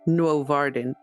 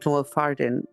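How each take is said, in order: First: The middle consonant is a V sound. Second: The middle consonant is an F sound.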